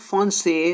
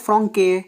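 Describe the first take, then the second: First: The middle consonant is an s sound. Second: The middle consonant is a k sound. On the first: The letter carries the cedilla. "एस की आवाज़ आ रही है" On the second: The letter has no cedilla. "अगर ये एक्सेंट नहीं होता हम क्या बोलते हैं"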